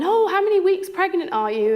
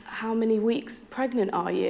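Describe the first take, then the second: First: Cheerful chirpy question. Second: Said in the usual way. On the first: Shown as a demonstration. Clinic staff cheerfully asking a pregnant patient, high and bright. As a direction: chirp it like happy news. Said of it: "rather than". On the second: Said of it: "it was, um".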